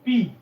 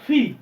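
First: The p is plain, without a puff of air. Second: The p has a strong puff of air. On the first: The speaker calls it wrong. "এটা কিন্তু পি উচ্চারণ হয় না" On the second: The speaker calls it right. "এটা ফি"

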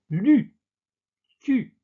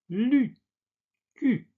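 The two takes are said the same way.

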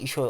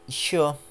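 First: The word is read flatly, without a marked stress. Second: The word is read with a clearly marked stress. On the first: The speaker calls it wrong. "direkt işo olarak değil de" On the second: The speaker calls it right. "hani işo diye okumalısınız"

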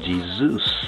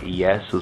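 First: The name is said in a foreign, English-style way. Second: The name is said in a Hebrew-style way. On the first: This is a foreign form of the name. The speaker calls it wrong. "falsely called Jesus, the foreign pronunciation" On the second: This is the original form of the name. The speaker calls it right. "but more properly, Jesus"

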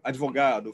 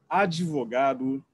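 First: The d and v are joined with no vowel. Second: A short vowel separates the d and v. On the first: This is not the usual colloquial Brazilian form. "não falam ... advogado" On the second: This is the usual colloquial Brazilian form. "falam ... advogado"

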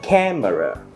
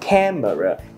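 The two takes are said the same way.

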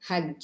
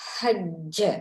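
First: The final consonant is clipped without a bounce. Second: The final consonant is pressed and audibly bounced. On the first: The speaker calls it wrong. "என்று ஓதுவது பிழை" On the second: The speaker calls it right. "நன்கு வெளித்தெரியும் படியாக அழுத்தி உச்சரிக்க வேண்டும்"

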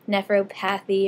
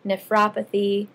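First: The stress falls on the 'path' syllable. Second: The stress falls on the 'rop' syllable. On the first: The speaker calls it wrong. "everyone wants to say nephropathy" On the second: The speaker calls it right. "it's really opathy at the end of the word"

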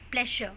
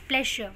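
First: The middle consonant is a 'sh' sound. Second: The same.

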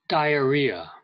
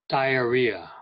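The two takes are said the same way.

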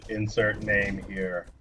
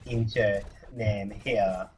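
First: It is said in his normal voice. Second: It imitates the SpongeBob French narrator's voice.

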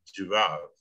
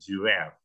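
First: It is said with a British accent. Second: It is said with an American accent. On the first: "Kalau British, bacanya A itu ya benar-benar A" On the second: "Tapi kalau American, A-nya itu jadi E"

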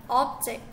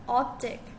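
Both takes have the same delivery.

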